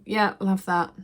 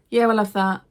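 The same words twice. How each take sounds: First: Said in the usual way. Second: Louder, brusque take on the man's words; curt shop man. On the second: Retold or imitated. Charity shop man picking through her bag, louder and brusque. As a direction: play the dismissive sorter grabbing items.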